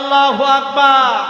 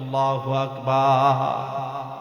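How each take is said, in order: First: It is said more loudly. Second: It is said at normal volume.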